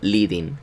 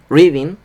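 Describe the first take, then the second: First: The word begins with an L sound. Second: The word begins with an R sound. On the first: The speaker calls it wrong. "pues ella diciendo leading" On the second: The speaker calls it right. "Tienes que pronunciar la R por cojones"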